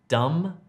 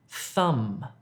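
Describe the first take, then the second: First: The word begins with a d sound. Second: The word begins with a th sound. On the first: The speaker calls it wrong. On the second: The speaker calls it right.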